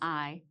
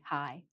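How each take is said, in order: First: The word starts directly with the vowel. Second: The word starts with an added h sound. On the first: The speaker calls it wrong. "not I" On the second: The speaker calls it right. "but like hi"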